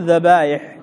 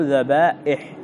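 First: ذبائح said with a y glide in place of hamza; wrong form with ya. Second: ذبائح with a glottal stop after long aa; ya turned hamza. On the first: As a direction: glide through ذبائح as if written with ya. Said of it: "فما تقول ذبائح". (نطق ذبائح بياء بدل الهمزة) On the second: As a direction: catch the hamza in ذبائح before the i. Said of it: "الياء همزة". (نطق ذبائح بهمزة محققة) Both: Shown as a demonstration.

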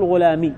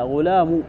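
First: غلامي ending in a long i sound; غلامي said the wrong way, with a final ee. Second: غلام ending in a short u, ghulamu; غلام with the final mim given a short u; with damma. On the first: Teacher shows students the wrong form, غلامي with a final ee. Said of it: "لا تقول". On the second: Teacher corrects students, غلام said with a final u. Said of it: "بالضم". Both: Shown as a demonstration.

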